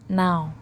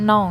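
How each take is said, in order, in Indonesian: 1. Vokalnya terdengar seperti di kata 'cow'. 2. Vokalnya terdengar seperti di kata 'know'. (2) "Dibacanya bukan now ya. Kalau now itu tahu"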